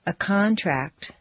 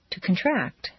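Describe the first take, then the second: First: First syllable of "contract" stressed; "contract" as a noun, KON-tract. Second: Second syllable of "contract" stressed; "contract" as a verb, kun-TRACT. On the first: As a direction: hit CON in "contract". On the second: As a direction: hit TRACT in "contract", reduce the first vowel. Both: Shown as a demonstration. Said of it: "regular transitions of nouns and verbs".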